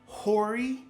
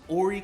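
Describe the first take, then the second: First: The first H sound is pronounced. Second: The first H sound is silent. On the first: The speaker is not from around here. The speaker calls it wrong. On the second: The speaker is a local. The speaker calls it right.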